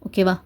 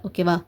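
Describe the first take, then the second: Both takes have the same delivery.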